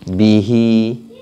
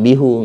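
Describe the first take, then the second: First: The word ends with an 'i' vowel. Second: The word ends with an 'u' vowel. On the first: The speaker calls it right. "apalagi bihi" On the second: The speaker calls it wrong. "enggak bihu, enggak enak"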